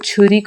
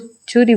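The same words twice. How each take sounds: First: The first consonant has a strong puff of air. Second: The first consonant has no puff of air. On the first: A native speaker says it. The speaker calls it right. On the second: A speaker of another language says it. The speaker calls it wrong.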